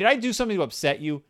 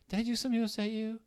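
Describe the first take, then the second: First: The question sounds harsh and confrontational. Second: The question sounds soft and gentle. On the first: The speaker is accusing the friend. The speaker calls it wrong. "Don't say it confrontation. ... Don't say it like that" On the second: The speaker is caringly checking in. The speaker calls it right. "Say it like that, as gently as possible"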